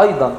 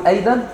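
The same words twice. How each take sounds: First: أيضًا with a heavy, broad "AY-dan"; full emphatic vowel and ض in أيضًا; emphatic alef. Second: أيضًا as a light "ey-den" with a plain d; thinned-out أيضًا, rising as a question; thin alef. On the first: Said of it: "بننطق الألف بتاعتها ايه؟". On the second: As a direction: say أيضًا with fronted vowels, ض turned to د. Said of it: "الضاد مش هتنطق صح". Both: Shown as a demonstration.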